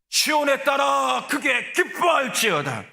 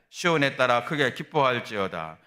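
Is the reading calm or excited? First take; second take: excited; calm. First: It is read in an excited, joyful way. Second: It is read in a calm, restrained way.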